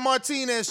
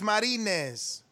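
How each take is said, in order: First: The name is said with a T sound. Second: The name is said without a T sound. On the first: The speaker calls it wrong. "It's not Martinez" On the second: The speaker calls it right. "just take out the T"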